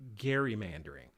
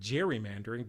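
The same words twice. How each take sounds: First: It begins with a hard G sound. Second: It begins with a soft J sound. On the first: The speaker calls it right. "pronounced like the name Gary" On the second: The speaker calls it wrong. "it looks like gerrymandering"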